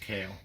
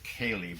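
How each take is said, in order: First: The name is pronounced differently from 'Kaylee'. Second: The name is pronounced like 'Kaylee'. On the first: The speaker calls it right. "a couple of guys at the boat show would tell me it's Kaille" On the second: The speaker calls it wrong. "I pronounced it Kaylee, but I was pronouncing it wrong"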